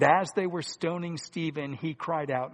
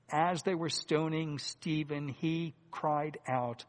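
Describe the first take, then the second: First: Said in the usual way. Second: Each word drawn out, he cried out very slow; slow emphatic retelling for the congregation; slow, deliberate emphasis. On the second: Shown as a demonstration. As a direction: lay it down slowly so the hearers catch it. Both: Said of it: "Now listen very carefully here".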